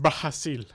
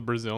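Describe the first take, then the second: First: It has a Portuguese h-like r sound. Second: It has an English z and final l sound. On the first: The speaker calls it right. "Pronounce it the way it's supposed to be pronounced" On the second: The speaker calls it wrong. "Why are you saying it weird?"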